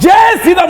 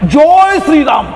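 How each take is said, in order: First: It is said with a Hindi-style pronunciation. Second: It is said with a Bengali-style pronunciation. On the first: The speaker calls it wrong. "নয়" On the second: The speaker calls it right. "বাংলায় পরিষ্কার বলা যায়"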